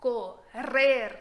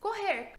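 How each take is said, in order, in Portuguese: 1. O duplo R é um som vibrante, com a língua vibrando. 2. O duplo R é um som gutural, feito na garganta. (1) "tem sempre som de R vibrante dentro do espanhol" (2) "você fala com o som do português"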